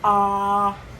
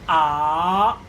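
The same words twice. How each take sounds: First: The pitch stays high and level. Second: The pitch rises from mid to high. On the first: "it's flat" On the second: "The second one is raising"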